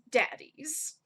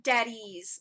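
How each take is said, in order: First: Sighed, exasperated DADDIES with rising end. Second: Said in the usual way. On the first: Acted. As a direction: say "daddies" like "oh my God". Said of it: "a definite note of, like, "Oh my God". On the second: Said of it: "that word daddies, the plural".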